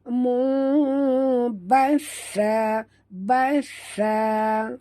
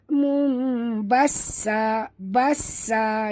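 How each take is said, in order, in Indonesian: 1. Konsonan yang digandakan itu bunyi 'th'. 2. Konsonan yang digandakan itu bunyi 's' desis. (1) "dekat sa sini ada tasydid. Jadi kita kena tekan" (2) "Jangan sebut mu basa basa, dengar bunyi sofir sin kan"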